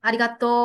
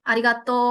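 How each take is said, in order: Both takes have the same delivery.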